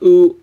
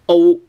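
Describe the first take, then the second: First: "oo" as the British-style glide to avoid; wrong oo vowel. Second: "o" high and level, starting rounded; right o vowel. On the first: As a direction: show the mistaken "oo" vowel, held. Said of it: "it's not oo". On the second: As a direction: say a high, held "o" as in American go. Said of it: "it's o". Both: Shown as a demonstration.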